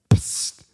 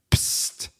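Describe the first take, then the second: First: A short unvoiced psst at full level; spray hiss. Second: A soft unvoiced psst of spray; spray hiss. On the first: Repeating the bear spray's burst for listeners: crisp hissing psst. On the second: Showing listeners the bear spray's burst: soft hissing psst. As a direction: imitate the can's quick hiss, softly. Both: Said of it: "it just went like this".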